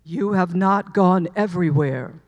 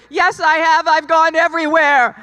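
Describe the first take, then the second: First: A divine voice correcting her, low and resonant; deep voice of God effect. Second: Higher and louder protest; arguing back. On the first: Acted. God answering her plea, in a deep booming voice. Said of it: "And the voice said". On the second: Retold or imitated. Arguing with God's voice, louder and higher in protest. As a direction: insist loudly that you have. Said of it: "I'm arguing with it".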